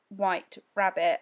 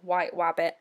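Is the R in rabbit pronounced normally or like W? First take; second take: normal; like W. First: The R in rabbit is a normal R. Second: The R in rabbit sounds like a W.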